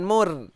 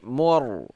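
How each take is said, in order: First: The r is said light and thin. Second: The r is said heavy and thick. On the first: The speaker calls it wrong. "bukan mur" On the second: The speaker calls it right. "tapi mur tebal"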